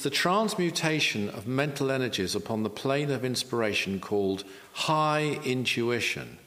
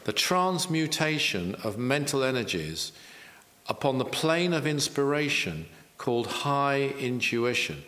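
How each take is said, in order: First: The phrase is spoken at a normal pace. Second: The phrase is spoken slowly and deliberately.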